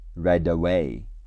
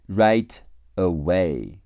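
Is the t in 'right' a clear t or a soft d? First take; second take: soft d; clear t. First: The t sounds like d, linked to away. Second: The t is a clear separate t sound.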